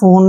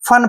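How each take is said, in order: First: The vowel sounds like 'o' in 'phone'. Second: The vowel is a short 'uh' sound. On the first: The speaker calls it wrong. "फोन नहीं पढ़ना है" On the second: The speaker calls it right. "फन पढ़ते हैं इसको"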